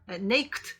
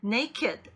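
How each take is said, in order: First: The ending is said as a plain t sound. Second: The ending is said as a separate 'id' syllable. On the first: The speaker calls it wrong. "초급이신 분들은 ... naked 이렇게 발음하는 경우가 종종 있습니다" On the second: The speaker calls it right. "기존의 동사에 적용되는 그런 발음 규칙 따르지 않고"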